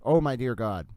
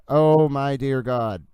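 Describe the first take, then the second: First: Said in the usual way. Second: Slow, louder stunned "Oh, my dear God"; shocked. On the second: Real, not acted. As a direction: drag it out, stunned by the news. Reacting to shocking tweet.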